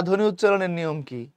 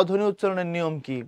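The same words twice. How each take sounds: The two takes are said the same way.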